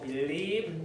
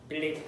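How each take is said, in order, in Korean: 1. 단어를 천천히, 입을 크게 벌려 발음합니다. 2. 단어를 빠르게, 여유 없이 발음합니다. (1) "believe 좀 여유를 두고" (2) "believe 하지 말고"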